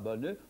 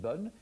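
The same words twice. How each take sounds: First: The final e is pronounced as a vowel. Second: The final e is silent. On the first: The speaker calls it wrong. "On ne dit pas" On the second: The speaker calls it right. "on dit"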